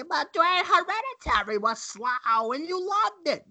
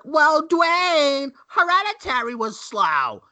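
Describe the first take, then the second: First: Put-on high, quavery old-grandma voice, much higher. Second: High mock-whiny voice, much higher and louder; mocking everyone. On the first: Host teasing his co-host as an old grandma, high voice. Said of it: "You just made yourself sound like an old grandma". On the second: Host mimicking people who call Hereditary slow, high mock voice. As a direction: parrot the crowd's objection in a put-on high voice.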